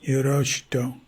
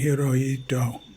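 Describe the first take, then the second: First: The third syllable is said with an 'sh' sound. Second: The third syllable is said with an 'h' sound. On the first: "the H I is pronounced S H I" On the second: "places in Japan where it's pronounced more like Hirohito"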